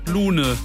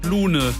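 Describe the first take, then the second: First: The name is said with a German pronunciation. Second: The same.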